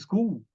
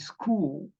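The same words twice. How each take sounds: First: The vowel is cut short. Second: The vowel is stretched long. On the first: It means skull. The speaker calls it wrong. "Se você fala school, você está falando crânio" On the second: It means a place of learning. The speaker calls it right. "Ela dá uma exagerada no O"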